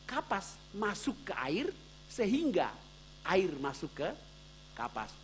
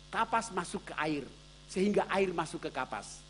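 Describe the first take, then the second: First: The sentence is said slowly and deliberately. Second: The sentence is said at a normal pace.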